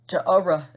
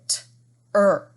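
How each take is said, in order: First: The vowel and the R are sounded separately. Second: The vowel is blended into one R sound. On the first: The speaker calls it wrong. "T-ura is not correct" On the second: The speaker calls it right. "So instead we say t-er"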